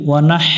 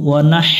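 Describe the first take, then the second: No difference in how they are said.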